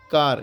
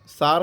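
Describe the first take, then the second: First: The word begins with a k sound. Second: The word begins with an s sound. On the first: The speaker calls it right. "इसको क्या पढ़ते हैं, कार" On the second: The speaker calls it wrong. "सार नहीं पढ़ते"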